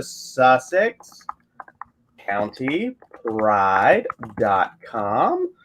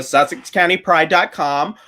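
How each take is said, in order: First: Very slow, word by word with long pauses; typing-out dictation. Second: Said in the usual way. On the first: Real, not acted. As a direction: dictate it slowly as you type, lifting at the end. Slow dictation while typing out address.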